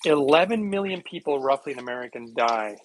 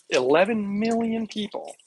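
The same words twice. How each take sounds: First: Said in the usual way. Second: "Eleven million people", slower, with "million" pushed higher; stress on million. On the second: Shown as a demonstration. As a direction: lean hard on "million". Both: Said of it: "repeats the figure for emphasis".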